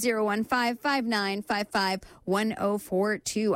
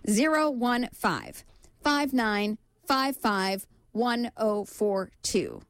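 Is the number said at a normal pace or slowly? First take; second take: normal; slowly. First: The number is said at a normal pace. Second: The number is said slowly.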